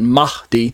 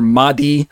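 First: The H is pronounced with a breathy sound. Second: The H is pronounced plainly, without breathiness. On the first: "where there's kind of a breathy sound on the H part" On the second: "they're just going to say either Mahdi"

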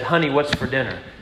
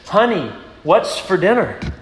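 First: It is said at a normal volume. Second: It is said more loudly.

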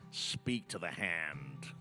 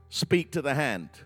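First: It is said in a put-on different accent. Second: It is said in his own natural accent.

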